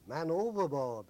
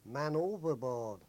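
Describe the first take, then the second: First: Calling out man overboard, loud; retold shout. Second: Slow, loud hailer call; retold shout over hailer. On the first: Sailors shouting up to the bridge, loud call. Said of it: "we all shouted up to the bridge". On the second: Crew answering the destroyer over the hailer, slow loud call. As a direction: call it slowly across the water. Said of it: "shout back over the loud hailer".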